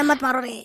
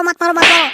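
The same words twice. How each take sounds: First: "मत मारो रे" trailing off much softer; mock plea fading to nothing; fading whimper. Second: "मत मारो" cried much higher, frantic; hammed-up high wail of "मत मारो"; mock frantic plea. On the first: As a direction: let "मत मारो रे" die away in a weak whimper. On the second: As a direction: cry "मत मारो" high and desperate. Begging while beaten.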